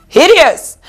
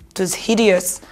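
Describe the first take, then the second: First: Hideous punched high and loud; emphatic disgusted hideous. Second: Low, soft disgusted hideous; soft drawn hideous; quiet disgust. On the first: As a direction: spit out hideous. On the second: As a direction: mutter it in distaste. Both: Acted.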